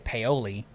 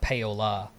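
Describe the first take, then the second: First: The name ends with an 'ee' sound. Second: The name ends with an 'uh' sound. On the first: This is how outsiders say it. The speaker calls it wrong. "most people would say Paoli" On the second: This is how locals say it. The speaker calls it right. "but it's Paola"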